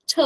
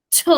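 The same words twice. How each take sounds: First: "ch" said soft and light; a gentle unaspirated "ch". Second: "ch" with a strong puff of air; aspirated ch. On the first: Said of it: "try pronouncing it softer". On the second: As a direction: push out a breathy, stressed "ch". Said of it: "more aspirated, more stressed". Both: Shown as a demonstration.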